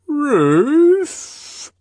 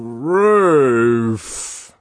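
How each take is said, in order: First: It is said with a questioning, uncertain tone. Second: It is said with joyful, rapturous delight. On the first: The speaker is unsure and seeks a response. "he said once more, questioningly" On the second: The speaker is overjoyed at what he sees. "he repeated in a voice of rapture"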